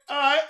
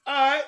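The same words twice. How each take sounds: The two takes are said the same way.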